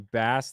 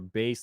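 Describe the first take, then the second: First: The vowel rhymes with 'mass'. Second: The vowel rhymes with 'face'. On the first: "like a fish" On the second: "like a subwoofer"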